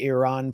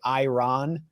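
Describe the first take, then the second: First: The first vowel sounds like 'ee'. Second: The first vowel sounds like 'eye'. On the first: The speaker calls it right. "try to say Iran properly" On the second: The speaker calls it wrong. "sounds like the sou- the fermented milk"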